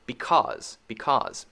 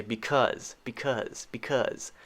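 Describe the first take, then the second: First: "because" as bee-KAWZ; "because" rhyming with "pause"; the other accepted variant. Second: "because" said bee-KUZ; "because" with a short "uh" in the second syllable; common American variant. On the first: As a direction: say "because" with an open "aw" vowel. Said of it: "Both are, I guess, okay". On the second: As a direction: make "because" rhyme with "fuzz". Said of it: "common in America for people to say". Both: Shown as a demonstration.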